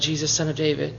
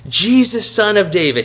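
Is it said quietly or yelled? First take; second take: quietly; yelled. First: It is said quietly and hesitantly. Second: It is yelled out loudly.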